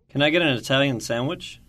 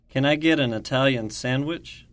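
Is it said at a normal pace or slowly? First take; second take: normal; slowly. First: It is said at a normal pace. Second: It is said slowly.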